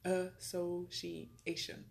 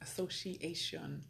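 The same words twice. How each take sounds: First: The word is drawn out and said slowly. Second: The word is said at a normal pace.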